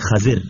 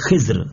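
First: An a after kh, an i before r. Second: An i after kh, no vowel before r. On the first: "خا کے اوپر زبر اور داد کے نیچے زیر کے ساتھ" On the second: "خا کے نیچے زیر اور داد کے اوپر جزم کے ساتھ"

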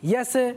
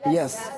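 First: The final consonant ends with an echoing bounce. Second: The final consonant ends plainly without a bounce. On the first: The speaker calls it wrong. "یس یس یس نہیں" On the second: The speaker calls it right. "سین حرف قلقلہ میں سے نہیں ہے تو اس کو پڑھیں گے ... بلکہ یس"

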